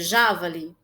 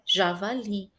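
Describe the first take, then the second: First: The stress is on the first syllable. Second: The stress is on the last syllable. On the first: The speaker calls it wrong. "se o já fosse mais forte, a pronúncia seria javali?" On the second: The speaker calls it right. "a pronúncia correta dessa palavra é javali"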